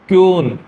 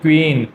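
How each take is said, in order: First: It begins with a ky sound and long oo. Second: It begins with a kw sound and long ee. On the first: The speaker calls it wrong. "क्यून नहीं है" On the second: The speaker calls it right. "आपको इसको pronounce करना चाहिए क्वीन"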